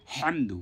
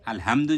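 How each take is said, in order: First: হামদু with a strong pharyngeal Arabic h; deliberate, breath-heavy throat h on হামদু; correct throat h. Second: Plain light h in আলহামদু; wrong light h. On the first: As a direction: push the h of হামদু from mid-throat. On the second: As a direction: say আলহামদু loosely, no throat friction on the h. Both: Shown as a demonstration. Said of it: "তাহলে কিন্তু বিরাট ভুল হয়ে যাবে".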